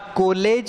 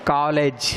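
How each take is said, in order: First: The first vowel is a rounded 'o' sound. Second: The first vowel falls between 'aa' and 'o'. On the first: The speaker calls it wrong. "न कॉलेज है" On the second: The speaker calls it right. "बल्कि ये कॉलेज है"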